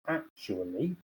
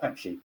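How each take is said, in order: First: Every syllable is said carefully and fully. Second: The syllables are squeezed into a short, casual form. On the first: "a very careful, actually, a very full pronunciation" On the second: "the most informal"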